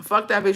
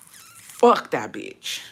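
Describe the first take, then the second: First: Said in the usual way. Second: Slow, low drag on each word; slow drawn-out. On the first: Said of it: "it didn't come out the way I wanted". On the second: Shown as a demonstration. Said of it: "Sorry, it didn't come out the way I wanted to".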